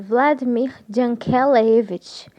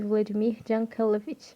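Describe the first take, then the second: First: The name is pronounced carefully and precisely. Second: The name is pronounced loosely, without care. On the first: The speaker calls it right. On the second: The speaker calls it wrong.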